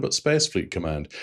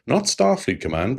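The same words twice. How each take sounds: First: "Space" stressed as the correcting name, falling to the end; contrastive stress on Space. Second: "Starfleet" raised in pitch as the rejected name; contrastive stress on Starfleet. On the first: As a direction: land the contrast on "Space", ending on a fall. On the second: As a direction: set up a contrast, lifting "Starfleet". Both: Shown as a demonstration.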